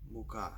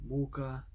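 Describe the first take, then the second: First: "muka" stressed on final KA; mu-KA, with a full final a; stress on last syllable. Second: "muka" stressed on MU, weak final a; stress on first syllable. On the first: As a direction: hold back mu, land on KA in "muka". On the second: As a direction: hit MU in "muka", let the ending drop. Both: Shown as a demonstration. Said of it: "torture, flower".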